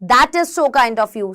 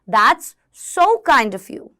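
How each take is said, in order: First: "That is" is said as two full words. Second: "That is" is contracted to "that's". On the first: The speaker calls it wrong. "हम ऐसे नहीं बोलते" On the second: The speaker calls it right. "Start saying that's so kind of you"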